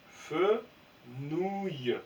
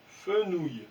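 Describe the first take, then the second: First: Fenouil dit lentement, en modèle; mot lu d'un trait. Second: Said in the usual way. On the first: Shown as a demonstration. (Fenouil lu posément) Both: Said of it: "Donc ça fait feu".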